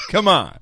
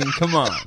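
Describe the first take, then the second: First: High, loud exasperated Come on; loud protest. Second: Said in the usual way. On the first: Real, not acted. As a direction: shout it in disbelief. Protesting host, repeated louder. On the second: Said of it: "You're killing me".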